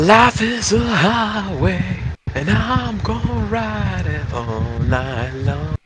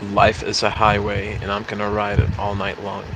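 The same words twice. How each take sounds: First: It is said in a livelier, more varied voice. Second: It is said in a flat, monotone voice. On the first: The speaker calls it right. "Is that a little better?" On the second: The speaker calls it wrong. "I've said it in such a monotone voice"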